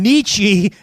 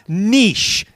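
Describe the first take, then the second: First: The name is said with two syllables, 'neechee'. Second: The name is said like the word 'niche'. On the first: The speaker calls it right. "there's a philosopher named Nietzsche" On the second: The speaker calls it wrong. "not niche"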